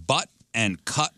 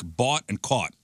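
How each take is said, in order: First: Said in the usual way. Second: BOUGHT and CAUGHT with the open "aw" vowel, slow; Chicago vowels. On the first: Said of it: "sound lo-, more like bought and caught". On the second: Shown as a demonstration. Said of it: "Words like butt and cut sound".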